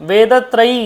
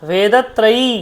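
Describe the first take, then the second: The two takes are said the same way.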